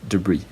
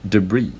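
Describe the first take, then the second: First: The stress is on the second syllable. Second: The same.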